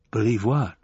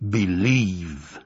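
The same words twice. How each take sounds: First: Said in the usual way. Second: Low, slow buffalo rumble; rumbling voice. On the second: A narrator's reading. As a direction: rumble it from beneath the earth. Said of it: "said the rumbling voice".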